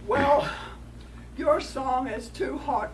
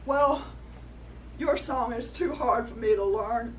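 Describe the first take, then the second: First: Loud, slow coyote complaint; lightly voiced coyote scolding a rock. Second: Louder coyote complaint; lightly voiced coyote pleading his case. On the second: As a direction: coyote tells the rock off.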